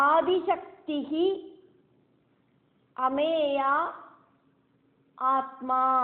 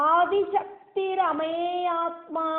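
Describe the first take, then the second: First: The words are said separately with a final breath. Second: The words are joined with an r sound. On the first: "அங்க விசர்க்கம் இருக்கு" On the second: "மூணு நாமங்களை கூட்டி சேர்த்தி"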